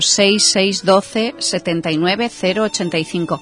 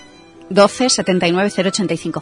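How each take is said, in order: First: The number is said slowly. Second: The number is said at normal speed.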